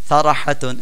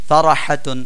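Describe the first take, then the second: The two takes are said the same way.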